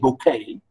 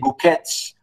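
First: The word is pronounced with a French accent. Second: The word is pronounced with an English accent. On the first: "but the French we say bouquet" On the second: "if you pronounce it in the English way"

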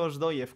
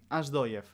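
First: The first vowel is a closed O. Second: The first vowel is open, close to A. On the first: "como he dicho yo" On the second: "¿A qué se debe esa O tan abierta?"

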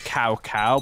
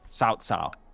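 First: Each syllable starts with a k sound. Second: Each syllable starts with an s-like sound. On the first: The speaker calls it wrong. "It's cow cow" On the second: The speaker calls it right. "but it's got pronounced sao sao"

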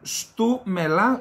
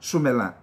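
First: The t sound after the s is pronounced. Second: The t sound after the s is dropped. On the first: "πάμε στου μελά" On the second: "Στα ποντιακά το του φεύγει"

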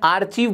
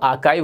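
First: The middle sound is 'ch', ending in 'eev'. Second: The middle sound is 'k', ending in 'ive'. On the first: The speaker calls it wrong. "मैंने आर्चीव बोल दिया" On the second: The speaker calls it right. "ये तो आर्काइव होता है"

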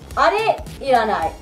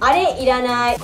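First: It is said at a normal, slower pace. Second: It is said at a quicker pace.

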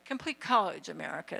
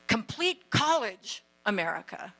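First: The name is said lightly and casually. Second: The name is said with strong emphasis. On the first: The speaker calls it wrong. "Or just casually" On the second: The speaker calls it right. "I want to say it with emphasis"

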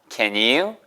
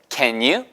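The two takes are said the same way.

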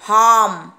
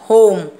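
First: The vowel is a short 'ah' sound. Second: The vowel is a long 'oh' sound. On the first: The speaker calls it wrong. "Not हार्म" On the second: The speaker calls it right. "जो letter का name है उसी तरह से pronounce करेगा होम"

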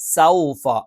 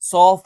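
First: The first vowel glides from a to u. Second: The first vowel is a plain o sound. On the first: The speaker calls it right. "സൗഫ എന്ന് കറക്റ്റ് ഉച്ചരിക്കണം" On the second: The speaker calls it wrong. "സോഫ എന്നായി പോകരുത്"

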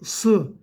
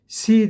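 First: The syllable is pronounced thick, with a back vowel. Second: The syllable is pronounced thin, with a front vowel. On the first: The speaker calls it right. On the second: The speaker calls it wrong. "Si değil"

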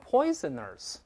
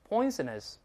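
First: The ending is said with a curled-tongue r. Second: The ending is said plainly, without an r. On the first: The speaker calls it wrong. "不要读成poisoners，不对" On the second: The speaker calls it right. "没有字母儿就不能勾舌头"

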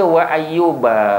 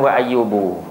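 First: The word ends with an a vowel. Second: The word ends with a u vowel. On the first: The speaker calls it right. "Sebab itulah dibaca wa ayyuba" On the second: The speaker calls it wrong. "bukan wa ayyubu"

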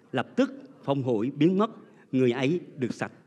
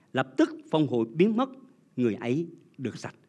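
The two takes are said the same way.

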